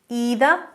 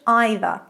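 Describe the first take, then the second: First: It is pronounced the American way. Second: It is pronounced the British way.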